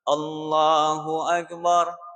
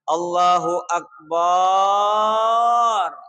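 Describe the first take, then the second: First: No vowel is drawn out beyond normal length. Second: The vowel after b in Akbar is drawn out. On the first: The speaker calls it right. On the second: The speaker calls it wrong. "tidak boleh memanjangkan banyo"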